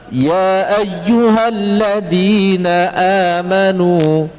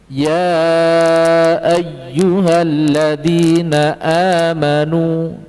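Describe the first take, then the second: First: The elongated vowel is held for two counts. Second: The elongated vowel is held for four or five counts. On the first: This follows the Thayyibah reading route. "Termasuk ya ayyuhalladzina juga sama" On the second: This follows the Syatibiyah reading route. "Maka di situ dibaca empat atau lima"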